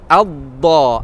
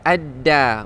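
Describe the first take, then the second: First: The consonant is a heavy, emphatic dh sound. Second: The consonant is a plain, light d sound. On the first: The speaker calls it right. "Dengan makhraj dha" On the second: The speaker calls it wrong. "bukannya dengan makhraj dal"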